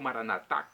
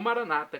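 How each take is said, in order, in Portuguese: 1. A tônica está na última sílaba. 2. A tônica está na penúltima sílaba. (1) "com a tônica na última" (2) "como dizem os nossos irmãos separados"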